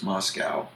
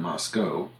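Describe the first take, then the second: First: "Moscow" rhyming with "cow"; "Moscow" ending in an "ow" sound; common pronunciation. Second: "Moscow" rhyming with "go"; "Moscow" ending in a long "oh"; Idaho local pronunciation. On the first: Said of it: "most people refer to the name". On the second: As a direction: say "Moscow" as "MOS-co". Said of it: "the people in Idaho insist on". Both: Shown as a demonstration.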